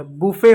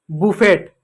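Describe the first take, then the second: First: बुफे said with a silent t, ending on e; बुफे said the right way; correct pronunciation. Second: बुफेट with the final t sounded; बुफेट said the wrong way; wrong pronunciation. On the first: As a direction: give the right form बुफे. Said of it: "टी silent होता है". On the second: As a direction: say बुफेट as the common mistake. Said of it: "बुफेट गलत है". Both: Shown as a demonstration.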